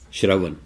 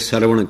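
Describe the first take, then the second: First: The word begins with a shr cluster sound. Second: The word begins with a plain s sound. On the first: The speaker calls it right. "बोलेगा श्र" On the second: The speaker calls it wrong. "सारे सरवण कहंदे ने, गलत है"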